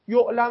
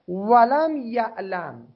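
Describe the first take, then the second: First: The verb starts with the vowel 'u'. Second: The verb starts with the vowel 'a'. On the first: It is not known. "یعلم هم میتونید بخونید" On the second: The doubter himself does not know. "نداند این آقای شاک"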